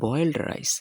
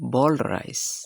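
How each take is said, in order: First: Boiled is split into two syllables, boy-eld. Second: Boiled is said as one syllable, boild. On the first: The speaker calls it wrong. "আমরা বলে থাকি" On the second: The speaker calls it right. "আসলে হবে"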